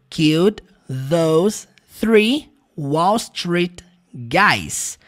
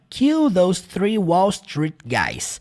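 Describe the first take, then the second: First: The sentence is said slowly and carefully. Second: The sentence is said quickly, run together.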